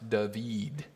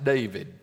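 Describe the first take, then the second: First: The name is said a non-English way. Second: The name is said the plain English way. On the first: The speaker calls it right. "That is supposed to be pronounced David" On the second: The speaker calls it wrong. "that's not pronounced David"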